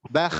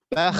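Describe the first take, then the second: Both takes have the same delivery.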